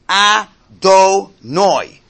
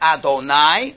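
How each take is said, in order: First: It is said in Ashkenazi Hebrew pronunciation. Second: It is said in Sephardi Hebrew pronunciation. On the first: The speaker calls it right. "the next word is pronounced Adonai" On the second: The speaker calls it wrong.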